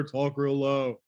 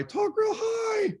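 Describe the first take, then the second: First: Slightly lowered demo voice; low pitch. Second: High pitch. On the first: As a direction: demonstrate talking low. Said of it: "or talk real low". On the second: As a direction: talk in a high, held squeal. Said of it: "pitch is if I talk real high". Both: Shown as a demonstration.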